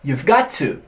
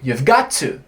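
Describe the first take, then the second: First: 'Have' is contracted, but 'got to' stays separate. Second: 'Have' is contracted, but 'got to' stays separate.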